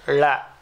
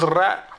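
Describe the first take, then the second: First: The syllable begins with an L sound. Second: The syllable begins with an R sound. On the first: The speaker calls it wrong. "Japanese is Ra will not come" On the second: The speaker calls it right. "Ask them to pronounce this Ra"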